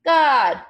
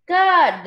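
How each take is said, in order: First: Louder, higher one-word response; crowd's ready answer. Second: High, emphatic loud response; louder crowd answer. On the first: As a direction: answer firmly as a crowd, without hesitation. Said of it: "everyone said". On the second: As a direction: answer firmly and loudly as a crowd. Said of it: "they all said louder". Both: A narrator's reading.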